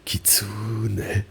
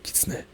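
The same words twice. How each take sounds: First: "kitsune" with a long, stretched "tsu"; slow "kitsune", leaning on the middle syllable; drawn-out wrong rhythm. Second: "kitsune" quick and soft, the "tsu" barely held; compact, evenly timed "kitsune"; short even rhythm. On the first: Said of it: "It's not kitsune". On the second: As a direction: keep "kitsune" short, with no stretched syllable. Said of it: "But it's like kitsune". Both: Shown as a demonstration.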